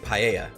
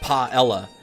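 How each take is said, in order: First: The middle is said without an L sound. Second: The middle is said with an L sound. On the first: The speaker calls it right. "you wouldn't have like an L sound because it's like a Spanish double L" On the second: The speaker calls it wrong. "some British people pronouncing it paella"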